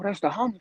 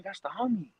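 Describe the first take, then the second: First: Said in the usual way. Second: Soft reassuring repeat. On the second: Retold or imitated. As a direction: drop it quieter, settling him down. Guy repeating it to calm.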